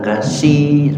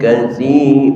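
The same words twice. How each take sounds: First: The middle consonant is a plain 's' sound. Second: The middle consonant is a soft 'th' sound. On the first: The speaker calls it wrong. "bukan kasi" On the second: The speaker calls it right. "bukan sin tetapi sa"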